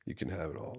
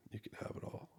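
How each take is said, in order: First: Said in the usual way. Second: Soft whisper of giving up control; whispered surrender. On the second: Retold or imitated. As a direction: breathe it out as a whisper. Surrendering to God in prayer.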